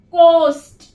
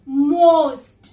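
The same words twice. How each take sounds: First: most said very slowly, sound by sound; most stretched into its separate sounds. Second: Said in the usual way. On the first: Shown as a demonstration. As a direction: draw out most slowly for learners. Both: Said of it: "जैसे word है most".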